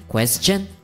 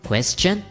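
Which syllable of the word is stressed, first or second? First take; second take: second; second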